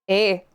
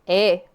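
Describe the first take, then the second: No difference in how they are said.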